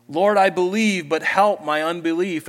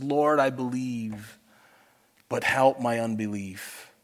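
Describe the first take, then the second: First: Loud, high fervent prayer cry. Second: Tearful plea. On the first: Acted. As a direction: call it out to God as your own prayer. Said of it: "That sounds like my prayer often". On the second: A narrator's reading. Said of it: "cried out and said with tears".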